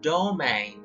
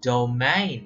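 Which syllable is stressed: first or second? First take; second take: first; second. First: The stress is on the first syllable. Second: The stress is on the second syllable. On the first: The speaker calls it wrong. "not domain" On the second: The speaker calls it right. "It's second syllable"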